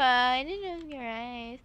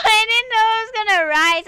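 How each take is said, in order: First: Said in the usual way. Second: Panicked wail. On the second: Real, not acted. Repeats it after the panic.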